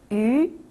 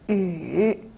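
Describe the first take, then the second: First: The pitch rises from mid to high. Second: The pitch dips low then rises.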